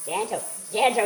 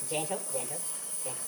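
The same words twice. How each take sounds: First: A mock quote of someone urging gentle, gentle; a light imitation of someone coaxing; quoting someone. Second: Soft coaxing. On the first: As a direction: repeat gentle, gentle in a lightly put-on voice. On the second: Shown as a demonstration. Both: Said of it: "he says".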